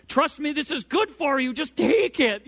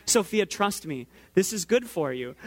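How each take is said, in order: First: High, strained, insistent parental pleading; escalating parent. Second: Even, measured parental reasoning. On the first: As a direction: act out a parent losing patience with a child. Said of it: "escalate as well". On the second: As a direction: reason with a small child, voice kept calm. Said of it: "try to rationalize with a". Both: Retold or imitated.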